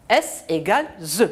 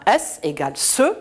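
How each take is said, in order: First: "ze" with a voiced z sound; voiced buzz starting "ze". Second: "ce" with a voiceless s sound; crisp voiceless s in "ce"; S as hissed "ce". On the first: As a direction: say "ze" with a buzzing z, as in zoo. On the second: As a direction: say "ce" with an unvoiced hissing s, as in sip. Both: Shown as a demonstration. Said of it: "nous donne le son ze".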